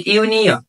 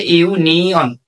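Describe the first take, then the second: First: Said in the usual way. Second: ইউনিয়ন divided into three parts, ইউ, নি, অন; careful teacher's breakdown of ইউনিয়ন into ইউ-নি-অন; syllable by syllable. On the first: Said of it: "শব্দটাকে একটু ভালো করে লক্ষ্য করতে হবে". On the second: Shown as a demonstration. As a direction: sound out ইউনিয়ন as three separate beats. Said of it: "তিনটা অংশ আছে".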